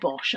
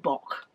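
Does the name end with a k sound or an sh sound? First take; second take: sh sound; k sound. First: The name ends with an sh sound. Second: The name ends with a k sound. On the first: The speaker calls it wrong. "I always say Filloway & Bosch" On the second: The speaker calls it right. "I think it's supposed to be Bock"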